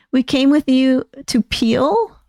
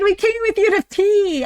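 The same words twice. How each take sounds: First: Puzzled, slow rising question; confused question. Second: High, squealing joy once it clicks; excited. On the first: Real, not acted. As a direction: ask it like you can't make sense of it. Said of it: "I'm not following that". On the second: Acted. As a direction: shout it out delighted. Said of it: "I'm so excited".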